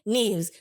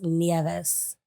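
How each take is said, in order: First: The vowels are blended, not each sounded out. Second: Every vowel is sounded out separately. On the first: "in Scottish. You said it right" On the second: "in Spanish, we enunciate every so every um, vowel"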